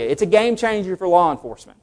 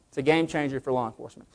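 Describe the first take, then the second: First: Game stressed firmly; emphatic. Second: Softer, fast repeat of game changer; quiet aside. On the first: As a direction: punch game in game changer. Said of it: "repeated softer". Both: Shown as a demonstration.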